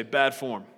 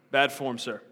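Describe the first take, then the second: First: A lightly lower, hint of a pirate captain's tut saying "Bad form"; Captain Hook. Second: Said in the usual way. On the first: Pastor quoting a pirate captain to scold Rehoboam, light tut. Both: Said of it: "As Captain Hook would say".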